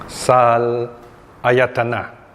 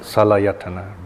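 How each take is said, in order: First: The word is split into two separate parts. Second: The word flows smoothly without any break. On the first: The speaker calls it wrong. "you don't pronounce it that way" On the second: The speaker calls it right. "we smoothly go through it"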